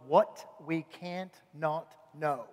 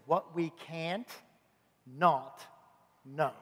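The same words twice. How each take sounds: First: It is said at normal speed. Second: It is said slowly.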